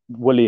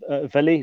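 First: The name begins with a W sound. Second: The name begins with a V sound. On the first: "is the other way to sort of call it" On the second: "So the W is essentially pronounced as a V"

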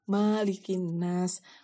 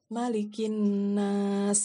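First: The first vowel 'ma' is drawn out long. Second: The first vowel 'ma' is kept short. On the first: The speaker calls it wrong. "Maknya tuh panjang" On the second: The speaker calls it right. "Padahal sebenarnya bacaannya malikin nas gitu"

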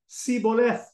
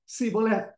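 First: The word begins with an s sound. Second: The word begins with an s sound.

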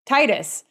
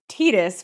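First: The name is said the usual American way. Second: The name is said the official, unusual way. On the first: This is how most people assumed it was said. The speaker calls it wrong. "All of us in the United States would say Tidus" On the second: This is the pronunciation confirmed by the makers. The speaker calls it right. "they came out and said that it was Tidus, which is awkward sounding in English"

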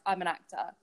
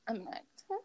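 First: It is said boldly and with confidence. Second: It is said shyly and with embarrassment.

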